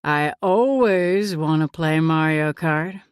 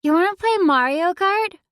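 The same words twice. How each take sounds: First: Lower, slow, amused male voice; amused man voice. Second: Put-on much higher, louder eager kid voice; excited child. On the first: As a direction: answer like a playful dad. One amused backward glance. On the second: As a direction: burst in asking eagerly. Zoe burst back in. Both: A narrator's reading.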